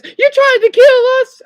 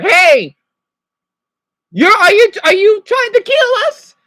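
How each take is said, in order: First: Very high, loud squeaky fish character; cartoon fish voice. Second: Much higher and louder, a shouted accusation at the driver; retold angry yell. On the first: SpongeBob fish accusing Patrick, in a very high squeaky voice. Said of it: "and then the fish says". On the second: Shouting at drivers blocking the crosswalk, loud and high. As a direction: yell at them as if your life's at stake. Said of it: "like the Sponso episode".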